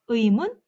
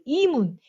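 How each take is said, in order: First: The first vowel is a gliding diphthong sound. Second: The first vowel is a simple 'i' sound. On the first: The speaker calls it right. "이중모음 발음합니다" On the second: The speaker calls it wrong. "이렇게 발음하지 않죠?"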